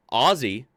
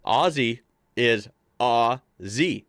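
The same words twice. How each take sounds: First: Aussie said with a z sound; Aussie as ozzy, with a z. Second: Aussie said slowly as ozzy, with a z. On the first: Correcting himself for viewers, Aussie with z. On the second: Showing viewers the fixed Aussie, slow and careful. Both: Shown as a demonstration. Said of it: "see, I fixed it".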